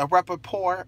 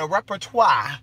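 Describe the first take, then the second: First: "repertoire" ending in an English "-tor" with a clear r; anglicized pronunciation. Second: "repertoire" ending in a French "-twa" with no final r; French-style pronunciation. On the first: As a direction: say "repertoire" as "repper-tor", American style. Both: Shown as a demonstration. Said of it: "I'm probably saying it wrong".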